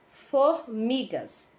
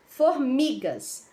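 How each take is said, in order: No difference in how they are said.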